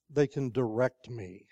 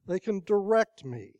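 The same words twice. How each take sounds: First: Said in the usual way. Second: "direct" appuyé, plus haut et plus fort; stress on direct. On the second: Shown as a demonstration.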